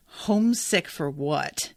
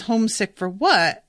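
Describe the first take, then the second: First: A slow, mildly bitter "Homesick for what?". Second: Said in the usual way. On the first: Retold or imitated. Alina answers Bagra's homesick question, mildly bitter. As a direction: let a touch of bitterness slow the line. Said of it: "In this really, you know, bitter sort of". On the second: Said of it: "so when Alina says".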